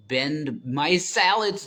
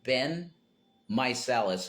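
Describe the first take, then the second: First: Slow, loud, higher "My Salads?" as a mock misreading of Meiselas; said as My Salads, a deliberate wrong name. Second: "Ben Meiselas." said plainly as Ben MY-sa-las; calm correction, "Ben" then "Meiselas."; proper name given as Ben MY-sa-las; right name. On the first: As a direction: stretch out "My Salads?" like a joke mispronunciation. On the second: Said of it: "like Benjamin". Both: Shown as a demonstration.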